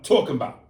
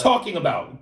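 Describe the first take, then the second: First: "talking about" with a rounded "taw" vowel; accented pronunciation. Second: "Talking about" with an open, unrounded vowel; standard pronunciation. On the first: Host demonstrating what an accent is, rounded "talking about". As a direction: lean on "tawk" in "talking about". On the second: Host contrasting accents, standard "Talking about". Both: Shown as a demonstration. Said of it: "That's accent".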